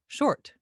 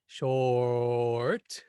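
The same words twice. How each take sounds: First: Said in the usual way. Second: "short" stretched into shooooort; over-long vowel. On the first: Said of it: "Notice it's also short in the word". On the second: Shown as a demonstration. Teacher showing what we don't normally say, drawn-out shooort. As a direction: hold the vowel of "short" far too long. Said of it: "We don't normally say short".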